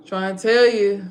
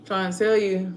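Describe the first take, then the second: First: The same line, now raised and pushed hard; frustrated near-shout at the listener; exasperated louder repeat. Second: Said in the usual way. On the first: Real, not acted. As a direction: say it again, fed up, much louder. Repeats line, second time louder.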